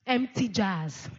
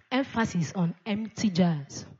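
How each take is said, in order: First: "Empty" slow and weighted, falling; "Empty jars" drawn out, the first word stressed. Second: Said in the usual way. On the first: Shown as a demonstration. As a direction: lean hard on "Empty", slowly.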